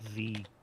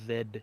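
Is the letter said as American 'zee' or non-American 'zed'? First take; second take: zee; zed. First: The letter is said the American way. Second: The letter is said the non-American way. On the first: The speaker calls it wrong. "Only Americans call it Z" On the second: The speaker calls it right. "The correct the correct way to pronounce it is Z"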